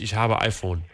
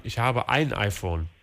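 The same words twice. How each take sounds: First: "habe iPhone" said slowly, no article; wrong version without article. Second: "ein" clearly stressed, slow. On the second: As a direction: say it slowly, hitting "ein". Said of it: "man muss immer sagen". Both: Shown as a demonstration.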